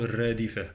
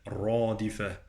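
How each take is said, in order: First: Quick "الرادفة" with thin r and front "re"; wrong light ra. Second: "الرادفة" with full dark "rɑ"; heavy ra. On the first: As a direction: mistaken "الرادفة", r kept light. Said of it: "لا أقول". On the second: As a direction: draw out the back vowel after r in "الرادفة". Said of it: "الراء مفخمة". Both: Shown as a demonstration.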